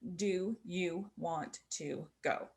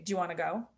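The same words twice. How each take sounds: First: Each word is said fully and separately. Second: The words are reduced and run together. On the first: "we know the words" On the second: "when we speak English, we rarely say it that way. We say"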